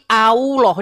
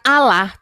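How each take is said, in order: First: The vowels are rounded like 'o' and 'u'. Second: The vowels are plain open 'a' sounds. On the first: The speaker calls it wrong. "Di mana huruf O sama U-nya?" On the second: The speaker calls it right.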